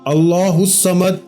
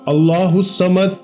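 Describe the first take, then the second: Both takes have the same delivery.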